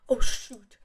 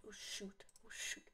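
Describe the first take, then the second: First: Said in the usual way. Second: Breathy whispered oh shoot; whispering. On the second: Real, not acted. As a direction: drop to a whisper. Fading into a whisper.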